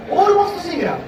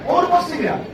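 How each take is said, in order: Both takes have the same delivery.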